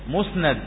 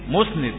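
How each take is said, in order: First: The vowel after the n sound is a. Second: The vowel after the n sound is i. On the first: It names the report that is attributed. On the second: It names the narrator who attributes the report.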